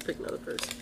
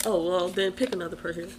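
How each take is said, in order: First: Whispered repeat, no voice. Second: Said in the usual way. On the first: Real, not acted. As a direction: breathe it under your voice.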